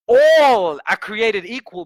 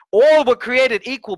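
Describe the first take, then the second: First: Louder, very slow emphatic repeat. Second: Higher, louder and slow emphatic quote; quoted punchline. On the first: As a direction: drive it home slowly. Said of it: "repeated slower". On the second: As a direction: preach the line with weight. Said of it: "He says this thing". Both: Shown as a demonstration.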